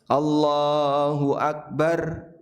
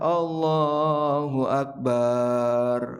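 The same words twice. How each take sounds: First: The vowel in the last syllable is kept short. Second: The vowel in the last syllable is drawn out long. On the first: The speaker calls it right. "Barnya pendek" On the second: The speaker calls it wrong. "baknya panjang ... Ini salah fatal"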